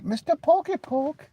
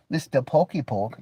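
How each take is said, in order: First: Much higher, slow, squeaky sing-song; squeaky cartoon name-calling; silly high voice. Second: Said in the usual way. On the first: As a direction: stretch it out like a cartoon.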